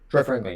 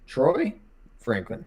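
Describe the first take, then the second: First: The word Troy is rushed and nearly skipped. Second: The word Troy is fully and clearly pronounced. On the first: The speaker calls it wrong. "You can't like skip over that" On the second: The speaker calls it right. "You have to really pronounce the Troy"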